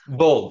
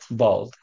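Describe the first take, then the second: First: The vowel sounds like the one in 'bold'. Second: The vowel sounds like the one in 'bald'. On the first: The speaker calls it right. "Which one is the right one?" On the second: The speaker calls it wrong. "What's the other one that I always say?"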